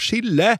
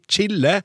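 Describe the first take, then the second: First: It begins with an 'sh' sound. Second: It begins with a 'ch' sound. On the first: The speaker calls it wrong. "med samme SJ-uttalelse som i «sjokolade»" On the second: The speaker calls it right. "I stedet for å si «chille»"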